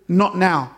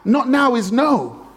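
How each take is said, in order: First: Said in the usual way. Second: "Not now is no" said slowly, higher, each word weighted; slow stressed verdict. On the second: Shown as a demonstration. Preacher driving home the point to the congregation, slow and weighty. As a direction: lean on "no" as the final verdict.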